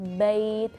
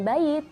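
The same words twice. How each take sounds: First: The ya sound is held softly and smoothly. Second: The ya sound is clipped, sounding like a kasra. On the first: The speaker calls it right. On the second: The speaker calls it wrong.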